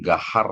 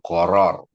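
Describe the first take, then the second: First: The word is said as 'gahar'. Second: The word is said as 'goror'. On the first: It comes out as a word meaning fierce. The speaker calls it wrong. "cara mengucapkan itu bukan gahar ya" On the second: It names the forbidden uncertainty in a sale. The speaker calls it right. "tapi ini adalah goror"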